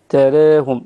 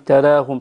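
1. الحركة بعد الراء مائلة نحو e. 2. الحركة بعد الراء فتحة مفتوحة a عادية. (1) "فيها التقليل وليس الترقيق فقط ... تراهم بهذا الشكل" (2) "لا نقول تراهم ترقيق مع الفتح"

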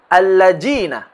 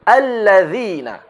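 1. Huruf tengahnya bunyi 'j'. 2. Huruf tengahnya bunyi 'th' lembut. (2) "Yang tepat adalah"

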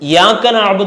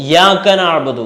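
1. ഈ വാക്ക് നേരിട്ട് 'യ' ശബ്ദത്തോടെയാണ് തുടങ്ങുന്നത്. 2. ഈ വാക്ക് നേരിട്ട് 'യ' ശബ്ദത്തോടെയാണ് തുടങ്ങുന്നത്.

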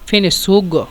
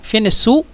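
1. শেষ শব্দটি g ধ্বনি দিয়ে শেষ হয়। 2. শেষ শব্দটি গ্লটাল স্টপ দিয়ে শেষ হয়। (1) "গয়েন" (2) "কফকে হামজা"

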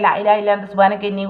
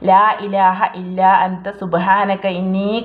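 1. ഈ വാക്യം വേഗത്തിലും തിടുക്കത്തിലും ചൊല്ലുന്നു. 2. ഈ വാക്യം സാവധാനത്തിലും ആലോചനയോടെയും ചൊല്ലുന്നു. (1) "അങ്ങനെയല്ല ... എന്ന സ്പീഡിലല്ലാതെ" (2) "അങ്ങനെ തന്നെ സാവധാനത്തിൽ ചൊല്ലുക"

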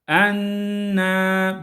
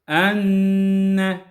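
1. Çift n çok uzun çekiliyor. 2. Çift n kısa tutuluyor, uzatılmıyor. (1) "bu çekiliyor. Böyle okumayalım. Bu yanlış" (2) "Doğrusu enne şeklinde"

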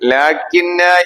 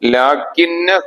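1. അവസാന സ്വരാക്ഷരം നീട്ടി ദീർഘമായി ഉച്ചരിക്കുന്നു. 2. അവസാന സ്വരാക്ഷരം ഹ്രസ്വമായി നിലനിർത്തുന്നു. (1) "ഒരു അലിഫ് നീട്ടി ഉച്ചരിക്കണം" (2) "ന എന്ന് നീട്ടാതെ"

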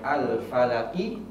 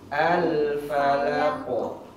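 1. Kata itu berakhir dengan vokal pendek setelah huruf q. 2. Kata itu berakhir dengan bunyi q yang memantul dan bergema. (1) "Harusnya kita bacanya al-falaki" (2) "ketika berhenti jadi al-falako"

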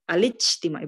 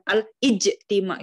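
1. Kata ini mengalir terus tanpa hentian glotal. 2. Kata ini punya hentian glotal yang ditekan pada hamzah. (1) "kita bacanya pun al-ijtima'i gitu ya" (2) "bukan ... enggak usah pakai penekanan hamzahnya itu"

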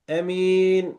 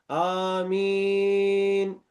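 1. İlk ünlü kısa okunur. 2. İlk ünlü uzun okunur. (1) "Burada da kasır ile okunmuş" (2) "burada amin metli bir şekilde geldi"

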